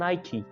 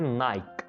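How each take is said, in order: First: It is said as two syllables, 'nai-kee'. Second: It is said as one syllable, 'naik'. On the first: The speaker calls it right. "लेकिन इसकी pronunciation है नाइकी" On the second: The speaker calls it wrong. "सबसे पहला brand जिसको अक्सर लोग बोलते हैं"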